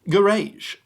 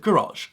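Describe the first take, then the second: First: The word is said the British way, ending like rage. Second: The word is said the American way. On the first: The speaker calls it right. "It looks like rage" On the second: The speaker calls it wrong. "Americans still pronounce this word garage"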